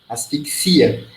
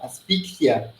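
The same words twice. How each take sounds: First: It is stressed the Portuguese way. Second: It is stressed the Spanish way. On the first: "Em português" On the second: "Mudou o idioma, mudou a tonicidade"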